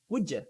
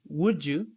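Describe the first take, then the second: First: The word 'you' is reduced to 'ya'. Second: The word 'you' is said in full. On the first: "you would say would ya" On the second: "Instead of saying would you"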